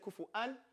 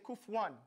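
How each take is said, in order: First: The middle has a glottal catch, no w. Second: The middle has a w sound, no catch. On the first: This follows the Warsh reading. "In Warsh we say kufu'an" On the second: This follows the Hafs reading. "with Hafs you say kufuwan"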